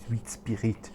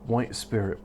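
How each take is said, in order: First: It is said with a put-on French accent. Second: It is said with a plain English accent. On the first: "you just do to the French accent" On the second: "the English word"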